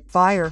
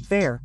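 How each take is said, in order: First: "Fire" with the vowel of eye; fire, the wrong word. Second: "fair" with the vowel of air; fair, not fire. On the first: Teacher shows the mistake to avoid, "Fire" with an eye glide. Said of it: "which is not fire". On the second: Teacher separates it from fire for learners, "fair" with an eh vowel. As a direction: say "fair" clearly with an eh vowel before the R. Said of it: "fair, which is not fire". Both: Shown as a demonstration.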